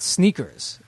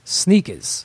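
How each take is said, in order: First: It is said in a general American accent. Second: It is said in a New York accent. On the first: The speaker calls it wrong. "it's not sneakers" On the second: The speaker calls it right. "having my friend here from Brooklyn"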